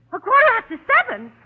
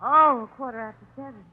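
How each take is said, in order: First: Pitched up in sudden alarm; the penny drops, she panics; alarmed realisation. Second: Said in the usual way. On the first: Acted.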